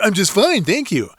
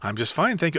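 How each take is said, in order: First: It is said in a mocking, teasing voice. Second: It is said in a normal speaking voice.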